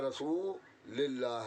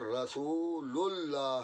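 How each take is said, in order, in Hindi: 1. Rasul के बाद का स्वर i है। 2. Rasul के बाद का स्वर u है। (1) "न रसूलिल्लाह है" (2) "बल्कि अशहदु अन्ना मुहम्मदर रसूलुल्लाह है"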